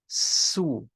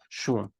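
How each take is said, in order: First: The word begins with a plain s sound. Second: The word begins with an sh sound. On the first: This is the casual everyday form. "when people are speaking day to day, let's say, it's going to be pronounced more like su" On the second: This is the written, careful form. "It's just sh with an u underneath"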